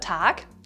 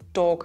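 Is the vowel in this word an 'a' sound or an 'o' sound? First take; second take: a sound; o sound. First: The vowel is an open 'a' sound. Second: The vowel is an 'o' sound. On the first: This is the standard form. "oder Tag" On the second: This is the Austrian dialect form. "der zu Tag wird"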